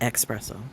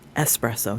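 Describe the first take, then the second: First: The word begins with an 'ex' sound. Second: The word begins with an 'es' sound. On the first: The speaker calls it wrong. "I catch myself using the X" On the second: The speaker calls it right.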